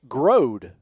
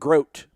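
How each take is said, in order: First: The first part ends with a D sound. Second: The first part ends with a T sound. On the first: The speaker calls it right. "It is literally Grode, like G Road" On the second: The speaker calls it wrong. "like Grote, like rhymes with throat"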